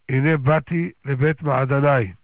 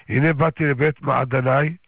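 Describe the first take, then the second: Both takes have the same delivery.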